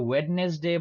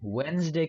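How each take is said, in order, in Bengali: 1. মাঝের d ধ্বনিটি উচ্চারিত হয়। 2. মাঝের d ধ্বনিটি নীরব।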